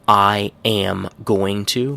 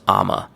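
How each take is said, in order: First: Every word is pronounced fully and separately. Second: The whole phrase shrinks to two short syllables.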